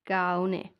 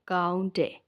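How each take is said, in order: First: No t sound is heard before the final syllable. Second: A t sound is heard before the final syllable.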